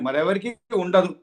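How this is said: It is said with a statement intonation. No one else has this power. "అది statement అండి"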